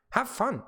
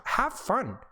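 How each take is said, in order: First: Said in the usual way. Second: Unvoiced, higher whispered "have fun". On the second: Real, not acted. Whispered encouragement, then repeated voiced.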